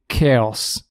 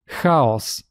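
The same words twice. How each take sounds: First: The word starts with a hard 'k' sound. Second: The word starts with a throaty 'h' as in loch. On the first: The speaker calls it wrong. "It is not K as in chaos" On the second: The speaker calls it right. "It is H"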